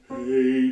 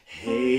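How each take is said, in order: First: The voice is placed back in the throat. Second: The voice is placed forward in the mouth.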